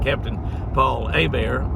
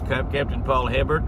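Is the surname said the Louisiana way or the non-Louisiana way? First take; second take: Louisiana; non-Louisiana. First: The surname has the local Louisiana pronunciation. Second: The surname has the non-Louisiana pronunciation. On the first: This is how locals near Louisiana would say it. "if he's in this part of the country, close to Louisiana, we'd call it" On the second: This is how the name is actually said. "but it's"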